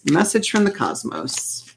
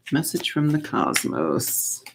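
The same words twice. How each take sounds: First: Said in the usual way. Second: Slow, hushed calling to the cosmos; mystical invocation. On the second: Shown as a demonstration. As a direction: summon the cosmos softly, like a ritual. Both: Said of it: "Let's do that".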